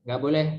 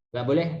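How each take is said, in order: Both takes have the same delivery.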